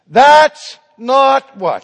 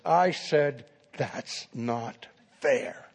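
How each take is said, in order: First: Very loud, drawn-out outcry, pitched high; cried-out protest. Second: Slow, softly spoken mock indignation; angry student. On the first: Retold or imitated. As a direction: cry out in slow, indignant protest. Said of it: "they cried out in protest". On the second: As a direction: repeat the protest slowly, held in and quiet. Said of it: "And now he's angry".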